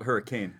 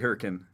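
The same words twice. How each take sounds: First: It is said the way it is spelled. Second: It is said the local way. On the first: This follows the written form of the name. "I've heard it's spelled hurricane" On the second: This is how residents of the town say it. "if you're from there, you say hurricane"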